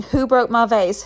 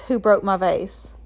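First: Mild narrated yell, raised and louder; storyteller voicing an upset mom's yell. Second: Understated repeat of a mother's yell, drawn out; mildly voiced angry demand, slower; storyteller's restrained version of mom yelling. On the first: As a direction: read the mother's angry outburst with some force. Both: A narrator's reading. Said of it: "She starts yelling".

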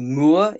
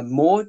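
First: Moore in a lightly posh little man voice; posh accent. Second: Said in the usual way. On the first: Shown as a demonstration. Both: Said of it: "if you want to say it like a posh little man".

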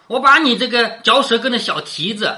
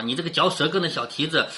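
First: Lightly acted scolding from a storybook; mild narrated scolding. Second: Said in the usual way. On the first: A narrator's reading. Maid cursing a teasing maid, mild scolding. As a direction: read it as a playful curse, lifted a little. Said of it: "口内骂着说". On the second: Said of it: "就是我要抹你的脸啊".

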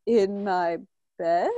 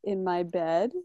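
First: "In my bed?" drawn out slowly, rising on "bed"; questioning guess. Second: "In my bed" said low and soft, tentatively; unsure guess. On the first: Shown as a demonstration. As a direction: stretch it into an unsure question on "bed". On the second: Retold or imitated. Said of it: "she could hear it in my voice".

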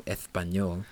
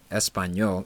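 First: "Espanyol" with the s lisped like th; Catalan lisp. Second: Said in the usual way. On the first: Shown as a demonstration. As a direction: say "Espanyol" as Ethpanyol, Castilian lisp. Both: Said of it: "I just wanted to talk like this".

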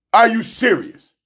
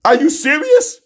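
First: Said in the usual way. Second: Disbelieving. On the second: Real, not acted. Incredulous repeat, higher.

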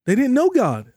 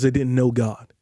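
First: "They didn't know God" thrown up high, pressing on know; rising emphasis. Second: Said in the usual way. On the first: Shown as a demonstration. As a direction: preach it higher and harder, "know" leaning. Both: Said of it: "I'm gonna say that again".

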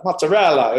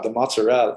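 First: Louder, hammed-up Italian accent; big playful imitation of an Italian. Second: Lightly imitated Italian accent; a first, lighter go at mock Italian; hint of an Italian accent. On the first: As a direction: relish it like a mock Italian. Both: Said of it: "they actually talk like that".

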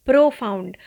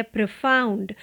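First: प्रोफाउंड said the wrong way, long pro; wrong pronunciation. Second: प्रोफाउंड with a short first vowel; the right प्रोफाउंड, calm and even; teacher's correct model; correct pronunciation. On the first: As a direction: demo the wrong प्रोफाउंड, a little louder. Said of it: "इसका गलत pronunciation". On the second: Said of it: "सही तरीके से सही pronunciation है". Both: Shown as a demonstration.

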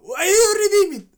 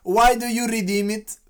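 First: Put-on much higher and louder, furious accented English; angry scammer. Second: Said in the usual way. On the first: Scammer yelling at the granny, furious accented shout. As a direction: spit out "redeem" in rage. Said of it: "o gajo continua". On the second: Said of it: "é só escreverem no YouTube".

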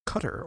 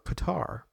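First: Qatar said 'KUT-er', stress first; Qatar with short first vowel, like cutter. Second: Qatar said 'kuh-TAR', stress last; Qatar with a long open final 'ar'; Qatar as kuh-TAR. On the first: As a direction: say Qatar to rhyme with butter. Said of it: "start pronouncing it cutter". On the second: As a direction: say Qatar to rhyme with guitar. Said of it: "we'll be saying Qatar or". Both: Retold or imitated.

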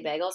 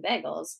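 First: "bagels" said "beg-uls", with the Minnesota vowel again. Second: "bagels" with a short e, like "beg-uls", Minnesota style. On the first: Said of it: "the way I say bagels". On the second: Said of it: "making fun of my Minnesota accent". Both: Real, not acted.

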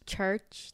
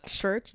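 First: Said in the usual way. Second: "Church" with its CH softened to a slushy SH; childhood speech impediment. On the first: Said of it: "what words could you not say". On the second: Shown as a demonstration. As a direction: say "Church" as "shurch", imitating an old impediment. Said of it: "like that".

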